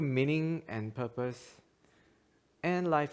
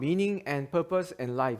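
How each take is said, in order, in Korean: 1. 'and life' 앞에서 끊어 읽어요. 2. 'and life' 앞에서 끊지 않고 이어서 읽어요. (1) "이렇게 끊어서 읽었으면 잘 읽으신 건데" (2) "이렇게 읽으면 안 되는지"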